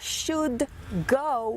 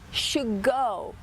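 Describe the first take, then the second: First: The word 'should' ends with an audible D sound. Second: The word 'should' ends with no D sound. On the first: "Ao invés de falar should go" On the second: "O D some, então fica should go"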